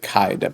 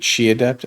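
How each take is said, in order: First: The first word sounds like 'kai', rhyming with 'eye'. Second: The first word sounds like 'chee', rhyming with 'see'. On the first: This is how the spelling looks. The speaker calls it wrong. "It looks like Kai Adept" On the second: This is the Chinese word. The speaker calls it right. "I think it's supposed to be Chi Adept"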